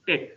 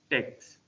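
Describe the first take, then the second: First: The word ends in a plain k sound. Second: The word ends in a kst sound. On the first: The speaker calls it right. "it's pronounced as tech" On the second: The speaker calls it wrong. "not text"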